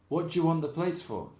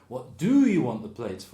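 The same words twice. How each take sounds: First: Most words are heavily shortened and run together. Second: Every word is said fully, without reductions.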